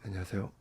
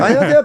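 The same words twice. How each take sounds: First: The greeting is low, flat and unenthusiastic. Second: The greeting is bright, high and energetic. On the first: This is how the speaker greeted people back then. "그 당시대로 돌아가 볼게요" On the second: This is how the speaker greets people now. "지금은 저 톤 장난 아니잖아요"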